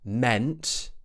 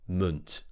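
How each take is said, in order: First: The vowel is a full 'e' sound. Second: The vowel is a weak schwa sound. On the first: The speaker calls it wrong. "We're not saying meant" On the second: The speaker calls it right. "it's actually munt"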